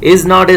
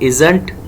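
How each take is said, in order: First: It is said as two separate full words. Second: It is said as one short contracted word. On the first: "Is not is"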